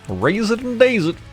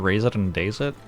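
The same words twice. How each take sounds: First: It is said in a funny put-on voice. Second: It is said in his normal voice.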